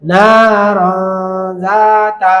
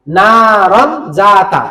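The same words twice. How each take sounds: First: নারন very slow, its n a long nasal hum; stretched নারন জাতা with hidden n; ikhfa pronunciation. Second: Said in the usual way. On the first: Shown as a demonstration. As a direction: hold the ghunnah between নারন and জাতা. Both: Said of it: "এটা হয়ে যাবে".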